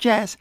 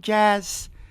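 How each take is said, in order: First: The vowel is less open. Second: The vowel is more open, with a full Z sound.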